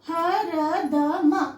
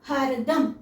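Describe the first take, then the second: First: Every letter is said with its full vowel. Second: The second and fourth letters lose their vowels. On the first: "four letters ఉంటే చూడండి" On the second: "రెండో అక్షరం నాలుగో అక్షరం మనం half పలుకుతాం"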